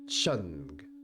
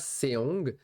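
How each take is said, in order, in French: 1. La syllabe commence par un son ch. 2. La syllabe commence par un son s. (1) "ça se dit Chong" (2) "ça ne se dit pas Seong"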